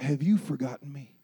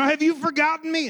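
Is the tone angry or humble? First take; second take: humble; angry. First: The question sounds humble and pleading. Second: The question sounds angry and accusing. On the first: The speaker brings frustration to God without anger. The speaker calls it right. "Do you see the difference there?" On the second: The speaker blames God in anger. The speaker calls it wrong. "Is there any babies in here that I'm scaring?"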